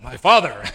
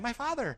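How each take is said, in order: First: It is said in a deep voice. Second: It is said in a high voice.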